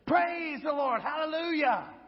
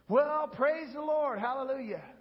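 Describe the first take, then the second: First: It is a loud, bold shout. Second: It is a weak, timid shout.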